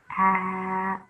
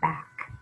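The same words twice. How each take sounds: First: The word is said slowly, one sound at a time. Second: The word is said quickly as one smooth unit. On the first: "Sound it out" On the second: "Read it fast"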